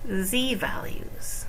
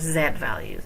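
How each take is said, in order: First: The letter Z is said the American way. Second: The letter Z is said the British way.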